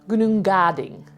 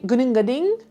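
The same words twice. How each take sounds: First: The name is said more slowly. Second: The name is said quickly. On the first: The speaker calls it right. "It should be" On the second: The speaker calls it wrong. "it was too fast"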